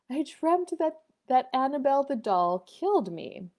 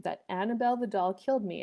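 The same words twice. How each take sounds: First: Higher-pitched imitation of a child; young daughter. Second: Said in the usual way. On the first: Daughter telling mother her bad dream, childlike. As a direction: voice a little girl recounting her nightmare. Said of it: "And she said".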